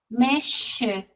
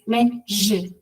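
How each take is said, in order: First: The middle consonant is a voiceless hiss. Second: The middle consonant is a voiced buzz. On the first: The speaker calls it wrong. "y no lo hacen vibratorio" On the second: The speaker calls it right. "que vibre"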